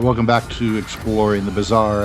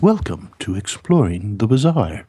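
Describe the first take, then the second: First: It is said in his normal hosting voice. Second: It is said in a soft NPR-style voice.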